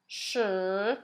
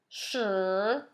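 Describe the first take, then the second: First: The pitch dips low, then rises. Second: The pitch dips low, then rises.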